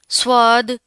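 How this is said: It is said with an Urdu accent. The speaker calls it wrong. "इस तरह नहीं पढ़ना, ये उर्दू एक्सेंट में पाए जाते हैं"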